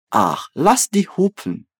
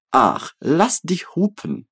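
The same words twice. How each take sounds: First: Said in the usual way. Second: Slow, clear Ach, lass dich hupen; teacher modelling it slowly; slow model phrase. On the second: Shown as a demonstration. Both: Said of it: "So, mit mir".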